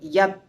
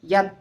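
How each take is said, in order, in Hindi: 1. अंतिम t मुश्किल से सुनाई देता है, लगभग साइलेंट। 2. अंतिम t मुश्किल से सुनाई देता है, लगभग साइलेंट।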